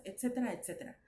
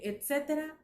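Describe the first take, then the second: First: "etcétera, etcétera" said as a list that trails off, falling at the end; "etcétera, etcétera" dicho como lista que se apaga, con tono descendente; trailing etcétera. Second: Said in the usual way. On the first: Shown as a demonstration. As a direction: let "etcétera, etcétera" fade away with a falling tune, as if the list goes on. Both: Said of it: "es como si dijeras".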